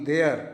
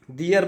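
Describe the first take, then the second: First: "देयर" said as dare, like "d̪eər" rhyming with air; wrong pronunciation of their. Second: "देयर" said as d̪ijər, with an ee glide before the er; correct pronunciation of their. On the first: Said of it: "ये नहीं". ("देयर" को गलत ढंग से d̪eər बोलें) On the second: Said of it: "देयर पढ़ना है". ("देयर" को सही ढंग से d̪ijər बोलें) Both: Shown as a demonstration.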